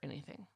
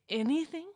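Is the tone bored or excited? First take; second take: bored; excited. First: The word sounds flat and uninterested. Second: The word sounds eager and thrilled. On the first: The speaker does not really care. "It is like a leaning back, anything. Like, I don't really care" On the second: Every possibility is open to the speaker. "Versus, I can have anything. Like"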